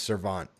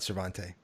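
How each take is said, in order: First: The name ends without a final vowel sound. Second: The name ends with a sounded final vowel. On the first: The speaker calls it right. "the E is silent" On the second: The speaker calls it wrong. "not Cervante"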